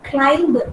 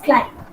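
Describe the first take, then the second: First: The final b sound is pronounced. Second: The final b sound is silent. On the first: The speaker calls it wrong. "is not climb" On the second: The speaker calls it right. "it is climb. B, b sound should not be pronounced"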